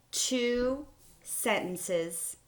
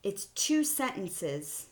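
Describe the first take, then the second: First: "two" drawn out slowly and higher; emphasis on two. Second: "two" slow and stretched; emphasis on two. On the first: Teacher stresses "two" while counting sentences. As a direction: lean hard on "two". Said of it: "teacher stresses counting". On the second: Teacher repeats "two sentences" slowly for students. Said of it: "teacher repeats count". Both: Shown as a demonstration.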